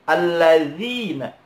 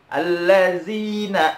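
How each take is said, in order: First: The middle consonant is a soft 'dh' sound. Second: The middle consonant is a buzzing 'z' sound. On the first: The speaker calls it right. "Seharusnya dibacanya za" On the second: The speaker calls it wrong. "Pakai zai, bukan pakai za"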